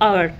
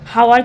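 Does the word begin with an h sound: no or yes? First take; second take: no; yes. First: The word begins without an h sound. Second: The word begins with an h sound. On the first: The speaker calls it right. "এটা কিন্তু আওয়ার" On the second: The speaker calls it wrong. "হাওয়ার কিন্তু হয় না"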